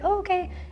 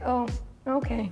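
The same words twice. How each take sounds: First: It sounds pleasant and accepting. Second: It sounds disapproving and judgmental.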